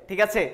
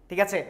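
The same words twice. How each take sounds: The two takes are said the same way.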